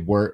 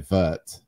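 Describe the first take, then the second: First: The word starts with a W sound. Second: The word starts with a V sound. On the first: The speaker calls it wrong. "we shouldn't say wort" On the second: The speaker calls it right. "we should say vert"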